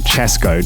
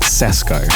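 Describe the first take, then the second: First: The name begins with a 'ch' sound. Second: The name begins with an 's' sound. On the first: The speaker calls it right. "So you say Chesco" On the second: The speaker calls it wrong. "not Sesko"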